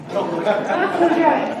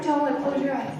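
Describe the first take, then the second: First: "Close your eyes" stretched out slowly and said louder; insist, drawing out each word; slow, firm repeat. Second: Said in the usual way. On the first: Real, not acted. Speaker repeats the instruction to the audience, slow and insistent. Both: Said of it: "okay, no, don't look".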